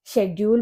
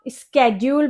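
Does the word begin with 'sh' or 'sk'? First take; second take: sh; sk. First: The word begins with a 'sh' sound. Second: The word begins with a 'sk' sound. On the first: "कुछ लोग शेड्यूल बोलते हैं" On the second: "कुछ लोग स्केड्यूल बोलते हैं"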